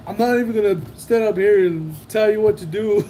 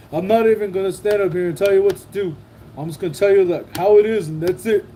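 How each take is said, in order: First: Said in the usual way. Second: Fast, puffed-up parody of a speech; mock pompous speech. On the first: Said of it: "He said". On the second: Streamer mimicking a politician's speech, fast and mocking. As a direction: mimic a self-important speaker, mocking him. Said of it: "then I was like".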